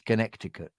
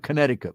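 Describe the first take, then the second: First: The middle C sound is pronounced. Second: The middle C sound is left out. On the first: This is how it is really spelled. The speaker calls it right. "but it really is Connecticut" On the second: This is how Americans say it. The speaker calls it wrong. "they go Connecticut without the C"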